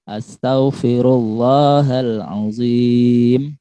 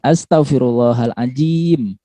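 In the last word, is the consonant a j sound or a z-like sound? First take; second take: z-like sound; j sound. First: The last word has a soft z-like consonant. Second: The last word has a j consonant. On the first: The speaker calls it right. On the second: The speaker calls it wrong.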